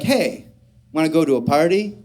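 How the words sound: It sounds relaxed, friendly and safe.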